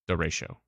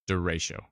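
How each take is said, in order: No difference in how they are said.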